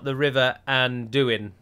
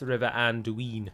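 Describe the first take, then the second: First: The u and i blend into one gliding vowel. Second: The u and i are said as separate vowels. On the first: The speaker calls it wrong. "It's not the River Anduin" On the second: The speaker calls it right. "UI is not a diphthong, which means it is not a single sound"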